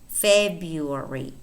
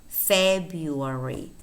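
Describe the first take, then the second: The two takes are said the same way.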